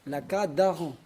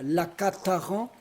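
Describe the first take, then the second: First: The liaison consonant is a voiced D sound. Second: The liaison consonant is a voiceless T sound. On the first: The speaker calls it right. "On ne peut pas entendre de T en liaison" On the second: The speaker calls it wrong. "si vous entendez quelqu'un qui dit la cataran, faux"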